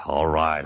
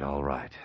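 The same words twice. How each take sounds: First: Said in the usual way. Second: Quiet aside. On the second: Acted. Holliday repeating the reply quietly so no one overhears. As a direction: drop to a hushed near-whisper. Phone call, must keep secret.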